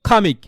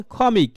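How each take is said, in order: First: খামিক with a throaty Arabic খ; correct kh. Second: খমিক said with a plain Bengali kh. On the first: Teacher giving the correct take. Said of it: "কি বলতে হবে?". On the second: Teacher showing the wrong Bengali take. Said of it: "বাঙালিয়ান উচ্চারণ হয়ে গেল". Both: Shown as a demonstration.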